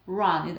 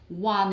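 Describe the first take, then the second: First: The word starts with a tongue R sound. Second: The word starts with a rounded W sound. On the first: The speaker calls it right. "this sound is produced with the tongue" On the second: The speaker calls it wrong. "produce the sound using the lips, ... it's W instead of R"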